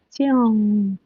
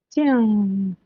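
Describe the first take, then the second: Both takes have the same delivery.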